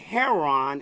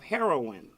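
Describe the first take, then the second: First: The word has a casual street pronunciation. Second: The word has a standard pronunciation.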